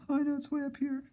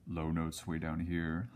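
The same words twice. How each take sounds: First: Tiny squeaky falsetto demo; very high-pitched, playful illustration; high-note voice. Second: Slightly lowered, drawn-out demo of low notes; slow, lowish illustrative voice. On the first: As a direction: leap way up high to illustrate high notes. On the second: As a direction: dip down and stretch the words slowly. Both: Shown as a demonstration.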